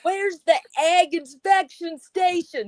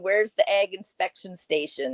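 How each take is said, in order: First: It is asked loudly and irritably. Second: It is asked in a calm, normal voice.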